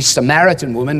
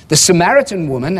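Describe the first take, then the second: First: Samaritan leaned on, tune rising on woman; stress on Samaritan. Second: Said in the usual way. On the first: Shown as a demonstration. Preacher pressing the point to the congregation, stress on Samaritan. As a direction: make Samaritan the word that matters. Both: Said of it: "again, the emphasis".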